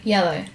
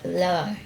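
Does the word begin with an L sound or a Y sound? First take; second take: Y sound; L sound. First: The word begins with a Y sound. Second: The word begins with an L sound. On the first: The standard adult form of the word. The speaker calls it right. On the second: A small child's attempt at the word. The speaker calls it wrong.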